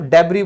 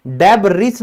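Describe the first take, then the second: First: डेब्री with no s at the end; silent s in debris. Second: डेब्रिस with the final s said; wrong pronunciation debris. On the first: Teacher gives the right form डेब्री to students. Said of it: "सिर्फ और सिर्फ डेब्री बोलते हैं". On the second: Teacher contrasts wrong डेब्रिस with right one. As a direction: demo of the wrong form डेब्रिस, s sounded. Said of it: "डेब्रिस नहीं बोलते". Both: Shown as a demonstration.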